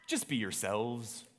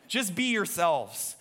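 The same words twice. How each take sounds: First: Slow, low, softer attempt at a Scottish accent; understated answer in an amateur Scottish accent; William Wallace. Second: Said in the usual way. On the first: Leader responds to his buddy before battle, Scottish accent. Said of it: "switching over to my Scottish accent".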